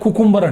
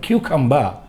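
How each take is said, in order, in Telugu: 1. మొదటి syllable 'koo' లా వినిపిస్తుంది. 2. మొదటి సిలబుల్ 'kyoo' లా వినిపిస్తుంది. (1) "కానీ తప్పది" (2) "క్యూకంబా అనాలి"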